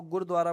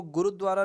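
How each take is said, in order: First: गुरुद्वारा said as "gurdwara", with no vowel after "gur"; correct pronunciation. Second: गुरुद्वारा with a full "u" after "gur", gu-ru-dwara; wrong pronunciation. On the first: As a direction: run "gur" straight into "dwara" in गुरुद्वारा. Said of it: "इसको गुरुद्वारा बोलते". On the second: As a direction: say गुरुद्वारा as four syllables, gu-ru-dwa-ra. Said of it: "वैसे इसको गुरुद्वारा नहीं बोलते". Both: Shown as a demonstration.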